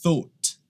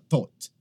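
First: It starts with a soft breathy th sound. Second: It starts with a hard t sound. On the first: The speaker calls it right. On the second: The speaker calls it wrong.

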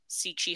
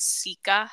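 First: It starts with s and has ch inside. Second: It starts with s and has k inside. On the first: "I've always heard it pronounced Sichi Hollow" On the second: "on Google, it says Sika Hollow"

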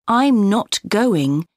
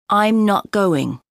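First: The T at the end of 'not' is pronounced. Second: The T at the end of 'not' is dropped.

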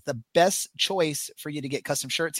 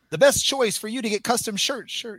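First: It is read flatly with little energy. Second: It is read loudly like a hyped announcer. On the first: "We got to get you to read that with some more passion" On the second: "You got to do like the Monster Truck or Supercross guy"

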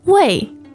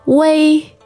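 First: The pitch falls sharply from high. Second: The pitch stays high and level. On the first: "that's the fourth one" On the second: "Could you go through the four tones on this syllable"

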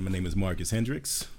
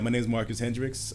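First: The voice is deep, formal and professional. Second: The voice is relaxed, casual and natural.

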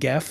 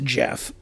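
First: The name begins with a hard G sound. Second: The name begins with a J sound. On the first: The speaker calls it wrong. "I didn't know that, so I always called him Geff" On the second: The speaker calls it right. "So it's pronounced Jeff"

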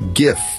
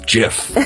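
First: It begins with a hard g sound. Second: It begins with a soft j sound. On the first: This is how most people already say it. "People already say GIF" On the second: This is how the inventor says it should be said. "He can't just come in and say, no, it's GIF"

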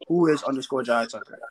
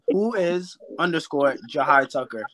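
First: It is said at normal speed. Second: It is said slowly and carefully.

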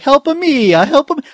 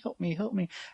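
First: It is said in an exaggerated Italian accent. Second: It is said without an Italian accent.

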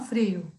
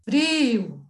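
First: The stressed i vowel is kept short. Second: The stressed i vowel is drawn out long. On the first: This is not how people in central Minas say it. "não frio" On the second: This is how people in central Minas say it. "O i comprido"

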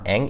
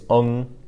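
First: The vowel sounds like English 'eh'. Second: The vowel sounds like English 'uh'. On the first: The speaker calls it wrong. "it's not eng like it would be spelled in English" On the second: The speaker calls it right. "it's ung, like that"

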